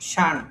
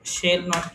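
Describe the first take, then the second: First: It is said as one contracted word. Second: It is said as two full words. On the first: "শর্টকাটে" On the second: "শেল নট কে শান"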